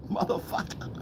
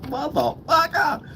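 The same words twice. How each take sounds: First: Voiceless, hushed swear; soft whispered exclamation; whispered curse. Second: High-pitched, slow swear with a laugh; laughing, squeaky-high drawn-out exclamation; high drawn-out curse. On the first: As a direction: whisper it under the laugh. Reacts to the exposed trick. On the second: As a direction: stretch the curse out high, syllable by syllable. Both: Real, not acted.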